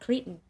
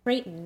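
First: The name sounds like 'Cretan'. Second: The name sounds like 'Creighton'. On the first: The speaker calls it wrong. "not Cretan" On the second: The speaker calls it right. "I'm quite certain it's actually Creighton"

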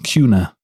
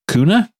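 First: The first syllable sounds like 'cue'. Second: The first syllable sounds like 'coo'. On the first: The speaker calls it right. "Like a cue ball, Cuna" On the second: The speaker calls it wrong. "anytime that you call it Cuna, which is kind of like it's spelled"

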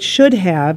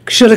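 First: The word "have" is pronounced in full. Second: The word "have" is reduced to a short vowel. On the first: "It should have" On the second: "I say shoulda"

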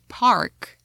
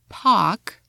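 First: It is said with an American accent. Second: It is said with a British accent. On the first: "I would say park in American" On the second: "So for words like park in British"

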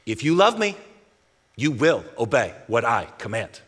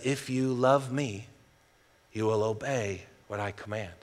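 First: It is said in a stern, angry tone. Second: It is said in a neutral, plain tone.

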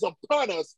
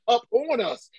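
First: Upon is said as one joined word. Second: Up and on are said as separate words. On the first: "instead of pronouncing it upon" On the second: "I pronounce it as up on us"

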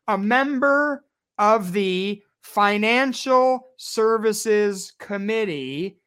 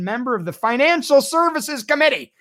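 First: It is said slowly. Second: It is said at normal speed.

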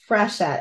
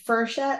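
First: The name begins with a 'fre' sound. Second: The name begins with a 'fer' sound. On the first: The speaker calls it right. "it's Frechette, F-R-E" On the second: The speaker calls it wrong. "say Frechette, like it's F-E-R"

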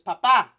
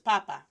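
First: The stress is on the second syllable. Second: The stress is on the first syllable. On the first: "Con acento, with the accent mark, is pronounced as papa" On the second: "sin acento, without the accent, is pronounced as papa"

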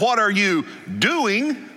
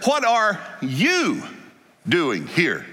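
First: The stress is on doing. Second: The stress is on you.

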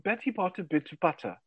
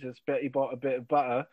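First: It is said in a posh British RP accent. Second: It is said in Cockney, dropping the T's.

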